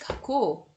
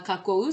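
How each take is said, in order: First: The final o is long. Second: The final o is short. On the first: The speaker calls it right. "c'est que c'est kako" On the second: The speaker calls it wrong. "Ce n'est pas kako"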